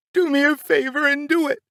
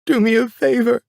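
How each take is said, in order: First: High, furious scream, leaning on "do"; mother screaming. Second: High, loud, hitting "do" hard; furious scream. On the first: Mother daring father to pull the trigger, furious high scream. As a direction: spit out "do" with pure defiance. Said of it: "I remember my mother screaming". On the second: Mother daring father to shoot, high furious scream. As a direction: bite into "do" as a dare. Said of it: "she said". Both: Retold or imitated.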